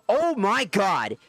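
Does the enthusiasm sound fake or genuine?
genuine. It sounds genuinely enthusiastic with more inflection. The speaker calls it right. "at least there's a little bit more inflection in it"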